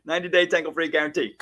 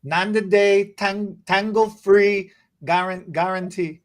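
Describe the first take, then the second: First: Fast demo. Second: Halting Ninety-day tangle-free guarantee, breaking mid-word; stumbling attempt. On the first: Rattling it off quickly for [name] to copy. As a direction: rattle off Ninety-day tangle-free guarantee quickly with a laugh. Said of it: "Say it one more time". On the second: [name] slowly stumbling over the tongue twister. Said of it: "I can't do that many vowels". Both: Shown as a demonstration.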